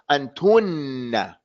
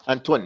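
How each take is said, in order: First: The n sound is held and doubled. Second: The n sound is short and single. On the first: The speaker calls it right. "Has a shadda on it" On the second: The speaker calls it wrong. "Don't say antun"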